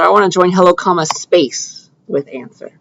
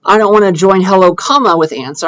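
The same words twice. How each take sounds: First: "comma, space" slowed, each word set apart; stress on space. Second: Said in the usual way. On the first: Shown as a demonstration. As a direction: lean on "space" after "comma". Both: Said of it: "There is no space after that comma".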